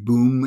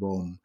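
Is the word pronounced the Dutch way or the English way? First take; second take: English; Dutch. First: The word is pronounced the English way. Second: The word is pronounced the Dutch way. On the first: "That would be boom in English" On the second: "but we pronounce it as boom"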